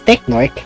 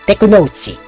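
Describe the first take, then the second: First: The name is read as an English-style word. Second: The name is read with Japanese syllables. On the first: "the English says Technork" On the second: "the usual mention of his name in Japanese is Tekunouchi"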